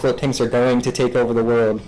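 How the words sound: It is said flatly, with weak emphasis. The claim is unremarkable. "there's like weaker words I could choose"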